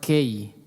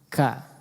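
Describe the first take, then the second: First: The vowel glides toward 'ei'. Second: The vowel is a clear open 'a'. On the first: The speaker calls it wrong. "jangan kei ya" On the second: The speaker calls it right. "dijelaskan harakat fathahnya ka ya"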